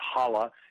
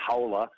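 First: The first vowel is a plain 'ah' sound. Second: The first vowel sounds like 'how'. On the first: The speaker calls it right. "Eric Halla's name is Halla" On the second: The speaker calls it wrong. "It's not Howla, as it's been pronounced by some people"

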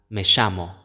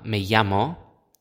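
First: It is said in an Argentine accent. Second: It is said in a neutral Spanish accent.

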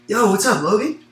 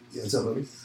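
First: The greeting sounds warm and engaged. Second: The greeting sounds flat and uninterested. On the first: The speaker is interested in the other person. "I was, like, kind of smiling. My shoulders are open. Like, I'm, like, engaged" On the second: The speaker does not care about the other person. "My voice is like, I can give a fuck about you"

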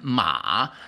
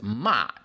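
First: The pitch dips low and then rises. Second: The pitch falls sharply from high to low. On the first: It means a horse. "And ma, the third horse" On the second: It means scolding someone. "whereas ma means like telling people off, scolding"

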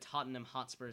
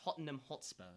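First: The name is said in a plain American accent. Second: The name is said in a British accent.

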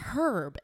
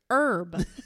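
First: The word begins with an audible H sound. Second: The word begins with no H sound. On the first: The speaker calls it wrong. "it's not herb" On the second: The speaker calls it right. "the H is silent"

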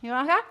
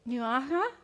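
First: The word is said very quickly. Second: The word is said at a normal speed.

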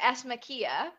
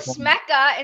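First: The final vowel sound of the name is pronounced. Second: The final vowel sound of the name is dropped. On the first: "instead of" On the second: "there's an EA in the end that people just skip"

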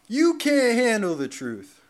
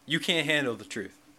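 First: It is acted dramatically, like the movie character. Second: It is said plainly, not acted.

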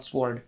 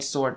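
First: The W sound is pronounced. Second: The W sound is silent. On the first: The speaker calls it wrong. "not sword" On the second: The speaker calls it right. "It's called sword, You don't hear the W"

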